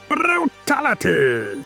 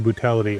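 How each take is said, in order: First: It is said in a Dinobot impression. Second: It is said in his normal voice.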